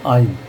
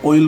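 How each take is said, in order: First: आइल as "AA-il", open aa; open AA reading. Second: ऑयल as "OH-il", round O; common OI reading. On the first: Teacher gives the actual word, aa-sounded आइल. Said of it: "actually word है ये". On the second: Teacher shows how people often say it, O-sounded ऑयल. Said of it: "लोग बाग ऑयल बोल देते". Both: Shown as a demonstration.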